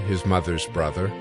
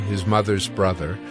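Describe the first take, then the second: No difference in how they are said.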